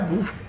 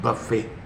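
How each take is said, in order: First: The first vowel is a long 'oo' sound. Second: The first vowel is a short 'uh' sound. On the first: The speaker calls it wrong. "आपने उस लफ्ज की ऐसी तैसी कह दी" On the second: The speaker calls it right. "उसको बफे कहते हैं"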